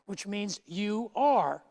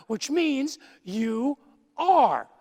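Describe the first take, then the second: First: Said in the usual way. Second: "are" held long, louder and higher at half speed; "are" stretched and punched; stress on ARE. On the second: Shown as a demonstration. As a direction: lean hard on "are". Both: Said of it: "present active indicative verb".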